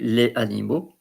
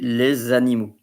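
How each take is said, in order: First: Les and animaux are said without a linking Z. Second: Les links to animaux with a Z sound. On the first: The speaker calls it wrong. "You don't say les animaux, although people might understand you" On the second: The speaker calls it right. "for the fluidity, you say les animaux. So the S, Z"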